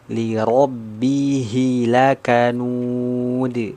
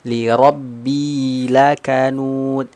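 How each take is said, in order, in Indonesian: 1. Bunyi h setelah rabb terucap dengan jelas. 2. Bunyi h setelah rabb samar dan kabur. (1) "harus jelas" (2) "Jangan kita membacanya li robbi, ini enggak jelas"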